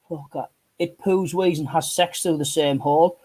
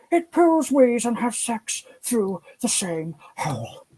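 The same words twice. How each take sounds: First: Said in the usual way. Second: High, slow nature-documentary narrator voice; hushed wildlife-presenter awe, drawn out slowly; David Attenborough impression. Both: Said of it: "I say that as David Attenborough".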